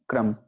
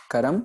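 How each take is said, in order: First: क्रम in one syllable, "kram"; pronunciation contrast. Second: करम in two syllables, "ka-ram"; pronunciation contrast. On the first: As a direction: say क्रम with k and r joined. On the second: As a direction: say करम with a vowel between k and r. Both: Shown as a demonstration. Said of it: "ऐसे ही हमारे पास कुछ और शब्द".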